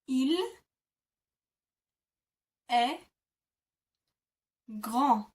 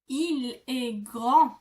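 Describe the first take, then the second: First: It is said slowly, part by part. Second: It is said quickly, all in one.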